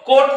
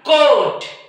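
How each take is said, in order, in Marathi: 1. हा स्वर ह्रस्व उच्चारला जातो. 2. हा स्वर दीर्घ उच्चारला जातो. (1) "कोट नाही" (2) "थोडा लॉंग स्वर"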